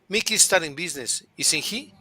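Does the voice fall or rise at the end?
rise. The voice rises on the tag at the end. The speaker is not sure and is really asking. "But if I'm not sure, I would say"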